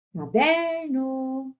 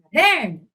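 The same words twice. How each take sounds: First: Sung, "Caderno" cantado, segurando o "der"; sung, cante "Caderno" devagar, com vogais longas; sung, palavra cantada. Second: "Caderno" chamado, com "DER" em destaque; chamando a palavra. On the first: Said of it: "Pode cantar". (sung, "Caderno" em tom de canto) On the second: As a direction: chame "Caderno" como quem chama alguém. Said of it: "Ou chama". ("Caderno" em tom de chamado) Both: Shown as a demonstration.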